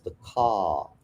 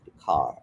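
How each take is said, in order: First: "car" said with no R, open long a; British R dropped. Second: "car" with a clear rolled-back R at the end; American R sounded. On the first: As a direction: drop the R in "car", British style. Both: Shown as a demonstration. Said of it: "the way the letter R is pronounced".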